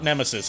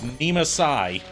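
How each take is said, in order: First: The name sounds like the ordinary word nemesis. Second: The name ends differently from the word nemesis. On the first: The speaker calls it wrong. "technically we're mispronouncing it. It's not Nemesis" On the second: The speaker calls it right. "it's Nemasai"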